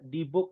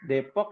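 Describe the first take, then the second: First: It is said with Arabic-style vowels and b. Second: It is said with local Indonesian vowels and p. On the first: The speaker calls it wrong. "nggak boleh Dibuk gitu ya" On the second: The speaker calls it right. "kita mengikuti sesuai dengan penamaannya"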